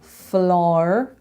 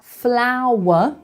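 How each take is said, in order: First: The vowel is a Belfast 'ar'-like sound. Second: The vowel is a standard English 'ow'. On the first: "become floor and tar" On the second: "Flower and tower become"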